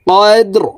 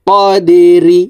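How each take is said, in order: First: The word ends on a bare r consonant. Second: The word ends with a short i vowel. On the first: "রকে ওয়াকফের ক্ষেত্রে সাকিন করে ফেলবো" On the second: "রজের রি"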